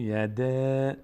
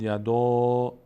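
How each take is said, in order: First: "یده" slowly drawn out on a thin front A; thin, light reading. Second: "یدا" slow, louder, with a rounded back A; full, heavy reading. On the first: Teacher giving the correct reading, "یده" with thin A. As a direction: keep the long vowel of "یده" light, as in cat. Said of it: "اما پر نمیشه". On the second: Teacher contrasting a mistaken reading, "یدا" with heavy A. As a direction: fill out the final vowel of "یدا" to a long "aw". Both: Shown as a demonstration.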